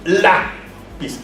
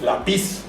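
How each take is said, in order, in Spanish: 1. El acento está en la primera sílaba. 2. El acento está en la última sílaba. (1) "decimos lápiz" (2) "No decimos lápiz"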